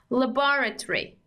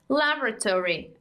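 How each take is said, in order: First: It is said in a British accent. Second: It is said in an American accent. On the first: "In British, we say laboratory" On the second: "And in American, we say laboratory"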